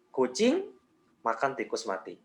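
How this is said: There is a pause after "kucing". "kita kasih jeda di kucing"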